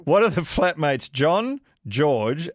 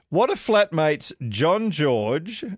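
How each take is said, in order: First: "John, George" split into two names; comma between names. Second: "John George" read as one name; names run together. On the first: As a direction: lift on John, short break, then George. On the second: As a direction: run John straight into George without a comma. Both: Real, not acted. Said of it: "there's a comma in between those".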